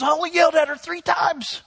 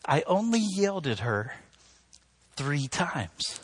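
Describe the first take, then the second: First: High, indignant excuse; defensive protest. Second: Pointed repeat. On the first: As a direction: protest in a raised, defensive pitch. Man defends himself, then mimicked back. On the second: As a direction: let each part sink in, pausing before THREE TIMES. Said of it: "Think about what you're saying". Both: Retold or imitated.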